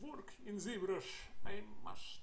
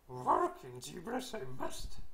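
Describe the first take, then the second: First: It is said in an ordinary speaking voice. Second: It is said in a put-on Yoda voice. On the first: The speaker calls it wrong. "this doesn't sound like Yoda" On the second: The speaker calls it right. "I'm working on my Yoda voice"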